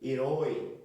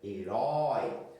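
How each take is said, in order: First: The diphthong is said with a closed vowel. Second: The diphthong is said with an open vowel. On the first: The speaker calls it wrong. "a boca não vai abrir" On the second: The speaker calls it right. "olha como a boca"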